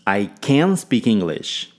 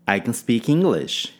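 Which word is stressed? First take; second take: can; English. First: The stress falls on the word can. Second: The stress falls on the word English. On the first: The speaker is truly able to do it. "Ênfase em can" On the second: The language is English, not another language. "Ênfase em English"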